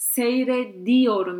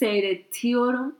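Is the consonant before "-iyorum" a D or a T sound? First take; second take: D; T. First: The middle consonant is a soft D sound. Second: The middle consonant is a hard T sound. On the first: The speaker calls it right. "So we say seyrediyorum" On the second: The speaker calls it wrong. "You don't say seyretiyorum"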